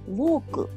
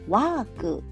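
First: It is said with Japanese katakana-style sounds. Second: It is said with natural English-style sounds. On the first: The speaker calls it wrong. "日本語ではカタカナ英語で発音しますが" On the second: The speaker calls it right. "の方がニュアンスとしては近いかなと思います"

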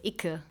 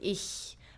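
First: It is said with a hard k sound. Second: It is said with a soft ch sound. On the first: This is how people in Berlin say it. "in Berlin they would say ikke" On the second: This is the usual form across the country. "usually you would say ich"

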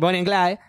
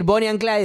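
First: It is said with an exaggerated English pronunciation. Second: It is said plainly, with a Spanish-style pronunciation.

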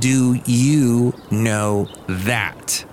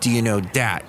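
First: It is said at a normal pace. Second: It is said fast and run together.

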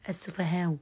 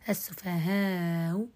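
First: The long vowel is kept short before a softened hamza. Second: The long vowel is stretched before a softened hamza. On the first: "ثم القصر" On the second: "تسهيل بالطول"

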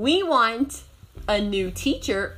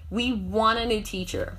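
First: Want and a are said as separate words. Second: Want and a are joined into wanna.

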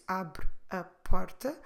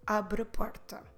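First: Slow, with all three words heard separately. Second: Normal pace, with the final e dropped and words joined. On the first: "if we speak slowly, we can hear the three words" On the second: "when we speak more normally, abre a will come together"

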